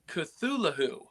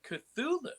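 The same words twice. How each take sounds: First: The H sound in the word is pronounced. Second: The H sound in the word is silent. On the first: The speaker calls it right. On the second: The speaker calls it wrong.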